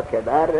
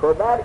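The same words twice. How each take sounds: First: کبر read "kebar", with an e; kebar, short e in the first syllable of کبر; first-vowel variant. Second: کبر read "kobar", with an o; kobar, short o in the first syllable of کبر; first-vowel variant. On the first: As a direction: say کبر with an e after the k: KE-bar. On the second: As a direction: say کبر with an o after the k: KO-bar. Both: Shown as a demonstration. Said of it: "کبر یا کبر".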